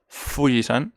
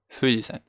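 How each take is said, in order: First: The first sound is a strong, firm f. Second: The first sound is a soft, h-like breath. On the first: The speaker calls it wrong. "No es Fuji-san" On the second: The speaker calls it right. "Entonces es como más suave"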